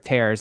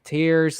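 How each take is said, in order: First: It sounds like the word for ripping. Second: It sounds like the word for crying. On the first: Ripping something apart. "like you are tearing a piece of paper" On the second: Drops from the eyes. "like you are crying"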